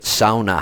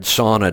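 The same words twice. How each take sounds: First: "sauna" pronounced SOW-nuh, drawn out; Swedish-style pronunciation. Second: Said in the usual way. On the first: Retold or imitated. Explaining the Minnesota Swedes' word, SOW-nuh pronunciation. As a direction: say "sauna" with an ow as in cow. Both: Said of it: "That's how they pronounce it".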